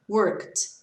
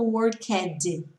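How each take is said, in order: First: "worked" in one syllable ending in a t sound; correct pronunciation. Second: "worked" as two syllables with a sounded -ed; wrong pronunciation. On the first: Teacher modelling for students, "worked" correctly as one syllable. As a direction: say "worked" as "workt", no vowel in the ending. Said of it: "Olha a minha pronúncia". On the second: Teacher showing students what not to say, "worked" wrongly with a full -ed syllable. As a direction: break "worked" into "wor-ked", adding a vowel before the d. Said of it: "eu não tô falando worked". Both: Shown as a demonstration.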